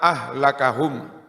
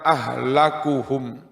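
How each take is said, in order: First: The k is followed by an 'a' vowel. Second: The k is followed by a 'u' vowel. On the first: It is a past-tense verb meaning he ruined them. "dengan menasobkan lafad ahlaka" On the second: It is a noun meaning the most ruined of them. "dengan merofakkan kafnya ahlaku"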